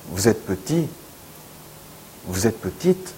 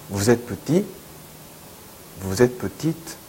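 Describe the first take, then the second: No difference in how they are said.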